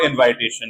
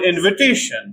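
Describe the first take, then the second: First: The second vowel is an eye diphthong. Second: The second vowel is a short schwa. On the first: The speaker calls it wrong. "not invitation, like many people say" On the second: The speaker calls it right. "noun invitation"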